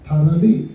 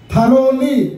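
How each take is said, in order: First: The middle vowel is short and reduced. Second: The middle vowel is a full oh sound. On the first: The speaker calls it right. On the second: The speaker calls it wrong.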